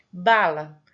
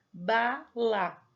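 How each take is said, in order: First: Said in the usual way. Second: "bala" said slowly as two separate beats, ba - la; split into syllables. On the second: Shown as a demonstration. Teacher showing a child the two sounds of "bala", syllable by syllable. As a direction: break "bala" after the first syllable: ba, pause, la. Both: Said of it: "são dois sons".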